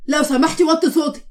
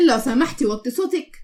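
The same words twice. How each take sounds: First: Firm, slightly raised demand; insistent, mildly annoyed request; stern request. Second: Laugh, then mimic the request; scoffing repeat, less forceful; mocking echo. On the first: Acted. Husband tells wife to quiet down. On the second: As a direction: throw the request back mockingly.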